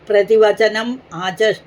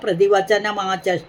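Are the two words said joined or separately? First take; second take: separately; joined. First: The two words are said separately. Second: The words run together through a linking m.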